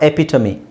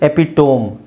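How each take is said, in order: First: It ends in 'tuh-mee' with the e pronounced. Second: It ends in a long 'tome' with silent e. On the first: The speaker calls it right. "ಸರಿಯಾದ ಉಚ್ಚಾರಣೆ" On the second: The speaker calls it wrong. "ಎಪಿಟೋಮ್ ಅಂತ ಓದ್ತಾರೆ"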